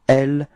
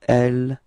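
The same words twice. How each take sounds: Both takes have the same delivery.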